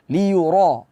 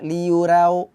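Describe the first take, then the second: First: The r sound is heavy and thick. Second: The r sound is light and thin. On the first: The speaker calls it right. "Ra tetap kita baca tebal" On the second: The speaker calls it wrong. "ra terbaca tipis"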